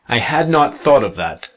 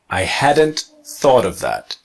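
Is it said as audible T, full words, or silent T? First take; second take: full words; audible T. First: Had not is said as two full words. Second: Hadn't is contracted with an audible T.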